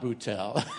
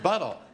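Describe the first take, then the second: First: The name is said in a French-sounding way. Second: The name is said in a plain English way. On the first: The speaker calls it wrong. "Not Buttel. It's not like he's French or something" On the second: The speaker calls it right. "but it's Buttel"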